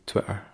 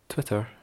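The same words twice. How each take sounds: First: The T sounds are soft and drawn out. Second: The T sounds are crisp and clearly pronounced. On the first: "I don't enunciate my T's and it sounds quite drawl out" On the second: "if I try and enunciate Twitter, I sound like an arse"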